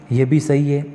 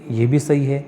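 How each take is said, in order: Both takes have the same delivery.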